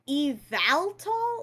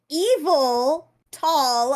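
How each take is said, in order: First: The first part sounds like 'eval', not 'evil'. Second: The first part sounds like the word 'evil'. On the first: The speaker thinks it should be said this way. "isn't it eval tall?" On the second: Someone else says it this way. "just sounds like she's saying evil tall"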